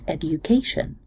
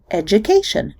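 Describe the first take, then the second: First: The d and y sounds stay separate. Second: The d and y merge into a j sound. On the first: "not education" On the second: "the majority of English speakers say education"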